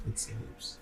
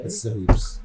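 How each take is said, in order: First: Breathy whisper, barely voiced; whispered repeat. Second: Said in the usual way. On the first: Real, not acted. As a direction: echo it in a hushed whisper.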